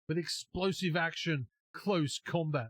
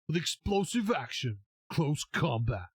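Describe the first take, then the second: First: It is said in a normal speaking voice. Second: It is said in a radio announcer voice.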